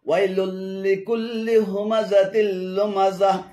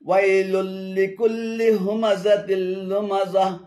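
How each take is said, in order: Both takes have the same delivery.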